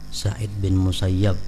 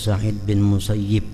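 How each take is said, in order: First: The last name ends with an 'ab' sound. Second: The last name ends with an 'ib' sound.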